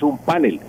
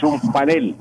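First: "panel" as PA-nel, first syllable stressed; wrong stress. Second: "panel" as pa-NEL, last syllable stressed; correct Spanish stress. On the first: Professor showing journalists the error, "panel" stressed up front. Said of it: "Eso es un panel". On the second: Professor lecturing journalists, "panel" stressed at the end. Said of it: "no es un panel". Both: Shown as a demonstration.

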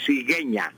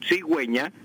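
First: "cigueña" said as sigeña, with the u silent; wrong without dieresis. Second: "cigüeña" said as sigweña, with the u clearly heard; u sounded. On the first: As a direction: drop the u sound in "cigueña". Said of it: "Si yo no colocara la diéresis". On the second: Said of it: "para que quede cigüeña y suene la U". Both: Shown as a demonstration.

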